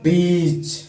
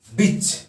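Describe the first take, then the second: First: बीच with the ee vowel stretched long; long sound. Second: बिच with a quick short i; short sound. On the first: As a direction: draw out बीच, holding the long ee. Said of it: "इसी को जब आप long करते हैं". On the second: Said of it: "short sound को". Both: Shown as a demonstration.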